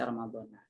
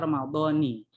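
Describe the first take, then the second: First: The word ends with an 'a' vowel. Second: The word ends with an 'i' vowel. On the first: The phrase is cut with a break. "Kalau di jeda ... dipenggal lagi ... itu berarti dibaca Ramadhana" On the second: The phrase is read on without a break. "kalau idopat berarti dibaca Ramadhani"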